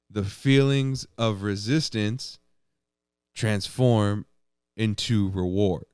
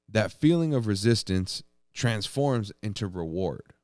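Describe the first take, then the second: First: It is said louder. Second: It is said at normal volume.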